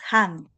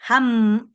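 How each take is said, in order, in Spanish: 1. La sílaba termina con los labios abiertos. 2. La sílaba termina con los labios cerrados. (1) "es han" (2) "no es ham"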